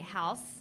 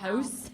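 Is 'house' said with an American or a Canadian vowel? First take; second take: American; Canadian. First: The vowel is open and broad, American style. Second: The vowel is raised, Canadian style. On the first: This is the pronunciation the script asked for. The speaker calls it right. "so we'd say house" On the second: This is the speaker's natural way of saying it. The speaker calls it wrong. "instead of house"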